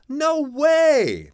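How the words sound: It sounds excited and pleased. The speaker is happily surprised. "That means that's great"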